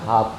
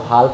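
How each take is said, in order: First: No L sound is heard before the F. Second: An L sound is heard before the F. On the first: The speaker calls it right. "हाफ पढ़ते हैं" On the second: The speaker calls it wrong. "आप इसको हाल्फ नहीं पढ़ के"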